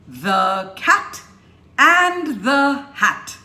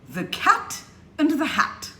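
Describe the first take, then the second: First: Each 'the' is said fully and clearly. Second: Each 'the' is shrunk to a quick weak sound. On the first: The speaker calls it wrong. "that's not speaking English correctly" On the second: The speaker calls it right. "You need to shrink the the"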